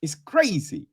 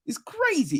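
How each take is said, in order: First: Said in the usual way. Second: It's crazy said high with a falling end; pitched up. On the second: Shown as a demonstration. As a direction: repeat "It's crazy" high, mock disbelief.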